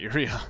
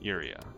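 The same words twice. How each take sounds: First: The stress is on the second syllable. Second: The stress is on the first syllable. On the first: The speaker calls it wrong. "not the second syllable" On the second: The speaker calls it right. "Emphasis on the first syllable"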